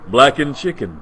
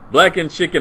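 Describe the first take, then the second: First: A low, seductive voice. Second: A goofy, cartoonish voice. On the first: The speaker calls it right. "that's your version of sexy" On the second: The speaker calls it wrong. "Not sexy. Not, not wacky"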